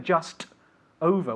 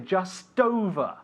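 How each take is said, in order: First: The two words are said separately, not linked. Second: The two words are linked smoothly together. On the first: The speaker calls it wrong. "We don't say just over" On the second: The speaker calls it right. "we do link the words just and over"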